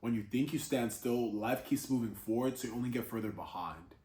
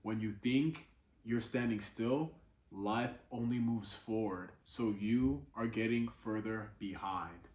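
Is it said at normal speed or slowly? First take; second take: normal; slowly. First: It is said at normal speed. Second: It is said more slowly.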